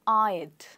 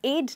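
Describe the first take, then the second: First: The vowel is a gliding 'ai' like 'eyed'. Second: The vowel is a short 'e' like 'ed'. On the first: The speaker calls it right. "हम इसको कुछ ऐसे बोलेंगे" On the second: The speaker calls it wrong. "एड नहीं"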